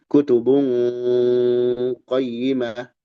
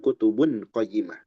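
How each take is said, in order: First: The n is blurred with a nasal hum. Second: The n is pronounced clearly without nasal hum. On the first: The speaker calls it right. "Dibaca samar, ya. Dan ada dengungnya" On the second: The speaker calls it wrong.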